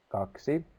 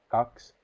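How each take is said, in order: First: The word is said in full, two syllables. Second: The word is shortened, dropping the final vowel. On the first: This is the standard written language form. "The red one is in standard language" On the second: This is an everyday spoken language form. "The purple and the green are in spoken language"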